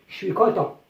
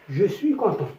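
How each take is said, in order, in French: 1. Le mot je devient un court son « ch ». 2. Le mot je garde sa voyelle pleine. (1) "Donc à l'oral, je dis" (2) "on écrit je suis content"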